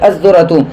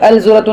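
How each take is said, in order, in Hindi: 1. L ध्वनि दोहरे z ध्वनि में मिल जाती है। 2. L ध्वनि z से पहले साफ़ उच्चारित होती है। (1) "वकई" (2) "नहीं"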